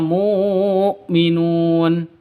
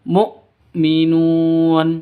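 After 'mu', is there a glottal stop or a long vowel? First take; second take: long vowel; glottal stop. First: The first vowel is drawn out long. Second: A short vowel is cut by a glottal stop. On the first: The speaker calls it wrong. "jangan dibaca mu'minun" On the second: The speaker calls it right. "tapi langsung mu'minun seperti itu"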